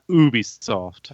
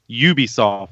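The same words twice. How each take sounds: First: The first U is not said like the letter. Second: The first U sounds like the letter name. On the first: The speaker calls it wrong. "not Ubisoft" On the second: The speaker calls it right. "you pronounce a U like a U"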